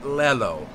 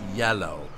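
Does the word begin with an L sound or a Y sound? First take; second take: L sound; Y sound. First: The word begins with an L sound. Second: The word begins with a Y sound. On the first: The speaker calls it wrong. "It's not Lelo" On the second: The speaker calls it right. "it's yellow"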